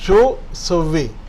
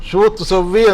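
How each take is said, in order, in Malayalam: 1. 'sawwi'ക്ക് മുമ്പുള്ള 'tu' അക്ഷരം ഒഴിവാക്കുന്നു. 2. 'sawwi'ക്ക് മുമ്പുള്ള 'tu' അക്ഷരം ഉച്ചരിക്കുന്നു. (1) "പക്ഷെ സംസാരിക്കുമ്പോൾ" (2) "എന്നാണ് ശരിക്കുള്ളത്"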